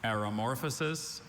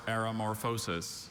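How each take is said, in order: First: "Aeromorphosis" stressed on MOR, weak vowel in -fuh-sis; first pronunciation. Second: "aeromorphosis" with a full long O in -FOH-sis; alternate pronunciation. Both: Shown as a demonstration. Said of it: "Are there any alternate pronunciations".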